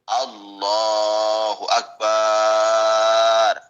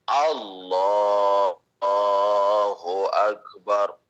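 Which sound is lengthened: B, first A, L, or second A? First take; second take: B; L. First: The B syllable of akbar is drawn out. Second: Only the L syllable of Allah is drawn out. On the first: The speaker calls it wrong. "yang panjang ba-nya" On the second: The speaker calls it right. "Yang paling benar panjangnya cuma di lafaz lam"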